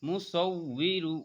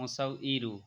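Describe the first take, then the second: First: A w sound links into the final syllables. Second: A glottal catch replaces the w sound. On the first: The speaker calls it right. "উই ইরু" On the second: The speaker calls it wrong. "অনেকে বলে মুসাউ ইরু, ইরু হবে না"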